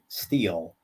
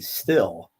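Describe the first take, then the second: First: The vowel is long, like in 'steel'. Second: The vowel is short, like in 'still'. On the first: The speaker says it this way. "that's how I pronounce it" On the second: Someone else said it this way. "I heard a, a young kid once call it a still"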